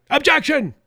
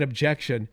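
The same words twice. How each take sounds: First: High, loud mock outcry; shouted objection. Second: Said in the usual way. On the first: Host imitating Democrats triggered by a prayer, shouting out. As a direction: shout it out like an outraged heckler. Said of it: "people started shouting out".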